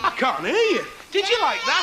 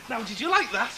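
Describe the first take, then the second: First: Put-on high, loud call to a crowd of kids; rousing shout. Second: Said in the usual way. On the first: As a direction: shout it to whip up a bigger answer. Pretends not to hear children.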